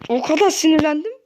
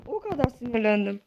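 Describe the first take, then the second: First: Loud "O kadar sinirlendim", fed up; angry. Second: Said in the usual way. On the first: Real, not acted. Gamer telling viewers how angry he got, loud. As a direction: push it out loudly, angry.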